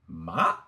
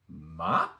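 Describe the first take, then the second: No difference in how they are said.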